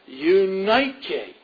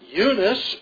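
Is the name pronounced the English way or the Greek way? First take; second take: Greek; English. First: The name is said with a Greek pronunciation. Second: The name is said with an English pronunciation.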